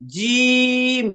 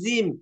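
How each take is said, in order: First: The first sound is a firm, hard j sound. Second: The first sound is a soft z-like sound. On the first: The speaker calls it right. "একটু শক্ত করে" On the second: The speaker calls it wrong. "জিম না, এটা হলে জায়ের সাথে মিলে যাচ্ছে।"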